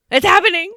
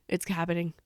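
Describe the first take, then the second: First: High, loud fangirl cry; loud, high-pitched re-enacted excitement; excited outburst. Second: Low, soft retold reaction; quietly reporting a thrilled realization; hushed anticipation. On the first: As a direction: burst out with it, thrilled. Same words repeated as excited squeal. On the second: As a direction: say it under your voice, holding back excitement. Excited fan retells her reaction.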